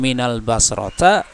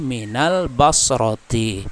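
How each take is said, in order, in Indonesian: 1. Kata terakhir diakhiri dengan vokal a. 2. Kata terakhir diakhiri dengan vokal i. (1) "Tidak boleh minal basrota" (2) "tapi minal basroti. Kenapa kasroh?"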